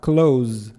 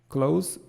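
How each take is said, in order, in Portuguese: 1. A palavra termina com um som de Z, vibrado. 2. A palavra termina com um som de S, chiado. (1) "o verbo, ele vai ter um som de Z no final" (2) "ela não vai ter um som de Z, ela vai ter um som de S"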